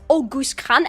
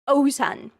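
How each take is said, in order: First: The name sounds like 'August Khan'. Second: The name sounds like 'Ozan'. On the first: The speaker calls it wrong. "You might think it's August Khan, and you would be entirely wrong" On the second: The speaker calls it right. "the correct way to pronounce this name"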